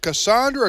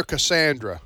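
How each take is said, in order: First: Cassandra with "ah" in the middle, kuh-SAHN-druh; stressed middle of Cassandra as an open "sahn"; broad-A pronunciation. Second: Cassandra with a flat "a" as in "sand", kuh-SAN-druh; short-A pronunciation. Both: Shown as a demonstration. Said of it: "is it Cassandra or Cassandra".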